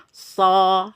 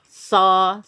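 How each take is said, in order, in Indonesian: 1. Bunyi s terdengar tebal, dengan vokal yang lebih gelap. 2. Bunyi s terdengar tebal, dengan vokal yang lebih gelap.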